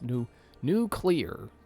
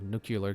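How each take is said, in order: First: It is said as two parts, new and clear. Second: It is said like the ordinary word nuclear. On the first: The speaker calls it right. "it's like N U and then clear" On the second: The speaker calls it wrong. "I think I mispronounced that"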